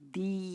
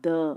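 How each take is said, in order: First: The word ends with an 'ee' vowel. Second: The word ends with an 'uh' vowel. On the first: The next word starts with a vowel sound. "Vowel sound முன்னாடி வந்தால் தி" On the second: The next word starts with a consonant sound. "Consonant சவுண்டுக்கு முன்னாடி வந்து த"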